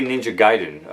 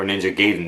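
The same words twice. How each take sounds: First: First syllable of Gaiden sounds like "guy"; GAIDEN as "GUY-den". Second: First syllable of Gaiden sounds like "gay"; GAIDEN as "GAY-den". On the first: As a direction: say Gaiden with a long "eye" vowel, GUY-den. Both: Shown as a demonstration. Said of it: "depending on how you pronounce it".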